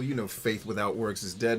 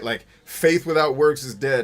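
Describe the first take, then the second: First: Said in the usual way. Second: Louder, leaning on "works" with a rise; stress on works. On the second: Shown as a demonstration. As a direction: punch the word "works" as the point. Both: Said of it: "y'all need to read the Bible".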